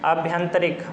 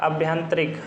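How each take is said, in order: The two takes are said the same way.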